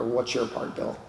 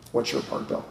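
First: Said in the usual way. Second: The question breathed out as a whisper. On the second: Retold or imitated. Sponsor's question echoing in his head, whispered. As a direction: hush it like a nagging inner voice. Same question repeated, now unvoiced.

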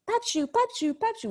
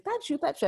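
First: Put-on high little-girl voice calling out; sing-song toddler calling for her grandpa. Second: Put-on a lighter, higher child voice, falling; toddler calling. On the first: Mother imitating her toddler calling for grandpa, high and sing-song. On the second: Mother echoing her toddler's call, lightly voiced.

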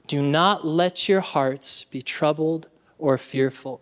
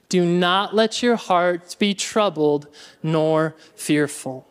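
First: Said in the usual way. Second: Slow recitation. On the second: Shown as a demonstration. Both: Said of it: "Y'all ready?".

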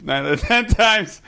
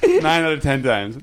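First: Repeated higher, with a laugh; high emphatic repeat. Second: Said in the usual way. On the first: Real, not acted. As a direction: say it again, higher and louder.

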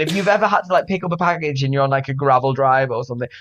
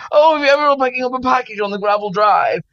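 First: Said in the usual way. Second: High, quick, exaggerated posh English; hammed-up posh English voice; mock posh accent. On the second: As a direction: send up your own posh English accent. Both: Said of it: "God, I sound so posh".

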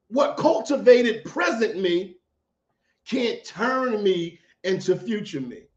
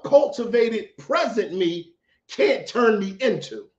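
First: Said in the usual way. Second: A real, unplanned crack in the voice. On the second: Real, not acted. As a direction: voice cracks up high on the words. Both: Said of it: "Why did my voice just crack like that?".

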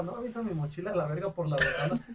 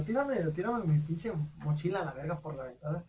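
First: Cita contada entre risas; riendo. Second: Said in the usual way. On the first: Retold or imitated. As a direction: suelta la orden riéndose de la travesura. Retold order to a friend, laughing. (le pide al compa que avienta la mochila, riéndose)

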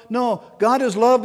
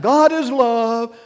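First: No, God is love said at speaking pace with a rise on love; corrective restatement. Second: God is love drawn out slowly, higher and louder, stressing God; slow emphatic declaration. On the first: Preacher restating God is love with a lift before adding anger. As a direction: restate God is love lightly, lifting love, to set up the turn. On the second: Preacher proclaiming God is love slowly with weight on God. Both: Shown as a demonstration.

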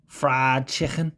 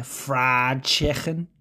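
First: Slow lightly Scouse "Fried chicken"; Scouse accent. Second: Scouse "Fried chicken", very slow with a guttural ch; Scouse accent. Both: Shown as a demonstration. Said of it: "read some fucking words in Scouse".

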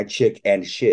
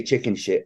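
First: "chick and shit" with a clear and between chick and shit; careful correction. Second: "chicken shit" run together as one word, chicken; misheard phrase. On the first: Shown as a demonstration. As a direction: separate "chick" from "and shit" distinctly. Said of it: "I didn't say chicken shit". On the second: Retold or imitated. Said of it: "I said looking at my chick and shit".

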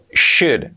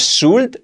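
First: "should" with SH and a silent L, like "shud"; correctly pronounced should. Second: "should" wrongly said with a plain S and a sounded L, like "sult"; mispronounced should. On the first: English teacher correcting learners' pronunciation, "should" said clearly as "shud". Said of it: "Importante la pronunciación". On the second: English teacher showing learners the mistake in "should", mispronounced as "sult". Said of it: "Importante la pronunciación, que no es should". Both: Shown as a demonstration.

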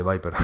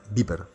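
First: Viper said as "BYE-per"; English pronunciation of VIPER. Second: Viper said as "BEE-per"; Spanish pronunciation of VIPER. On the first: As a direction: say Viper with an English "eye" vowel. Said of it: "pero se dice Viper". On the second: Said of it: "en España Viper". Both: Shown as a demonstration.

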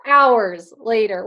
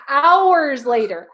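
First: Drawn out, pitch dropping; slow, lower and loud. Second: Drawn out, loud; slow and loud. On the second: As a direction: stretch each word out loud. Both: Shown as a demonstration.

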